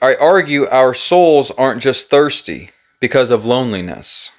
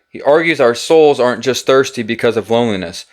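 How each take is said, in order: First: It is said at a slower pace. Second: It is said at a faster pace.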